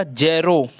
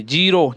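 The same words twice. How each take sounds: First: ज़ीरो said as जेरो, with an ए vowel; mispronounced slip. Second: ज़ीरो said as जीरो, with a long ई; corrected pronunciation. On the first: Real, not acted. Teacher misreading zero before correcting it, जेरो with ए. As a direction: say जे-रो in place of जी-रो. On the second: Shown as a demonstration. Teacher correcting own reading of zero, जीरो with long ई. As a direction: say जी-रो with an ee vowel. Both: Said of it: "sorry, ज़ीरो".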